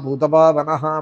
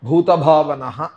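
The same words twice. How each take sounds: First: The first consonant is said without aspiration. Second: The first consonant is said with aspiration. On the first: The speaker calls it wrong. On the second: The speaker calls it right.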